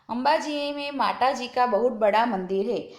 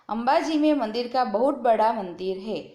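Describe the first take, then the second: First: The stress is on माताजी. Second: The stress is on बहुत बड़ा.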